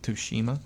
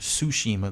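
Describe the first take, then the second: First: The word begins with an audible T sound. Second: The word begins without any T sound. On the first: The speaker calls it wrong. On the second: The speaker calls it right.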